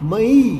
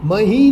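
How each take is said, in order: First: The h sound is dropped or barely heard. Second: The h sound is clearly pronounced. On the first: This is the North Gujarat dialect pronunciation. "હ આવતો હોય તો કાં તો લોપ પામ્યો હોય" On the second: This is the standard pronunciation. "નહીં"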